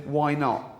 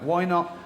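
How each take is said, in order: First: Offhand, breezy why not; light shrug of a suggestion; casual. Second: Casual suggestion tone, like a cooking tip; light casual why not. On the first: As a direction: toss it off like a recipe tip. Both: Shown as a demonstration. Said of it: "Like, casual".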